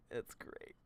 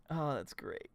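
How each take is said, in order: First: Breathy whispered repeat. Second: Said in the usual way. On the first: Real, not acted. Streamer whispering his reaction to chat. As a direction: drop to a whisper, amused.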